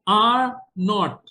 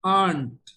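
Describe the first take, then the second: First: Both words are said fully and separately. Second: The words are contracted into one syllable.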